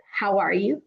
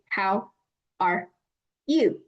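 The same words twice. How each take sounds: First: Said in the usual way. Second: "How" "are" "you" said word by word with pauses; choppy robotic English phrasing; robotic separated. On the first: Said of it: "Just like in English". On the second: Shown as a demonstration. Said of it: "That doesn't sound natural. It sounds robotic".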